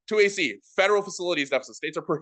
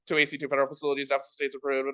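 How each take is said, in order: First: It is read with emphasis on key words. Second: It is read flat, without added emphasis. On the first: The argument sounds persuasive and easy to follow. The speaker calls it right. "words that I wanted like a little bit more persuasively said in a debate with emphasis" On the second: The listener cannot follow or note it down. The speaker calls it wrong. "instead of reading this as"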